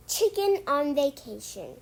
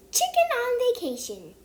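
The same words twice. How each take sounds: First: Said in the usual way. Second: Chicken on Vacation sung out high and loud with CHICKEN punched; announcing the title. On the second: Shown as a demonstration. Reader announces the book title to the kids, high and bright. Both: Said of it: "today we are going to read".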